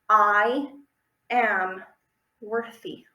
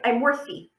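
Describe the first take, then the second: First: It is said slowly and clearly. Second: It is said fast and rushed.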